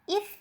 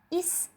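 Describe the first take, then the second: First: The final sound is made with the tongue between the teeth. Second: The final sound is a hissing s without the tongue between the teeth. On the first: The speaker calls it right. "ujung lidah dijepit" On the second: The speaker calls it wrong. "tidak menjepit ujung lidah"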